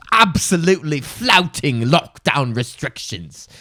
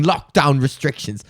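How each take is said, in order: First: "Absolutely flouting lockdown restrictions" drawn out slowly, every word weighted; slow emphatic outrage. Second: Said in the usual way. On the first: Shown as a demonstration. Host rereading the headline, slow, mock-indignant emphasis.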